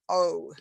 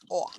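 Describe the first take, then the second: First: The vowel glides into a second vowel sound. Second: The vowel stays steady without any glide. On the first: The speaker calls it wrong. "it's not a diphthong" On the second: The speaker calls it right. "it's just O"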